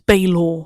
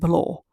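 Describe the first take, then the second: First: The name starts with a 'bay' sound. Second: The name sounds like the word 'below'. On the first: The speaker calls it right. "it's Baylor, not it's not below like I was saying it" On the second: The speaker calls it wrong. "I was saying it a bit wrong because I said below"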